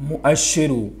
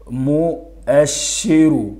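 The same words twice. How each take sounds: First: Said in the usual way. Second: مؤشر drawn out slowly in separate syllables. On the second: Shown as a demonstration. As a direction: break مؤشر into slow, stretched parts. (نطق مؤشر ببطء شديد مقطعًا مقطعًا) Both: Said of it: "أدمج الحروف".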